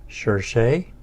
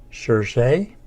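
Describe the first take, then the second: The two takes are said the same way.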